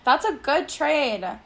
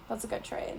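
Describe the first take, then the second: First: Said in the usual way. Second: Unvoiced, much softer whisper. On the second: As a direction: breathe it as an aside. Repeated as a whisper.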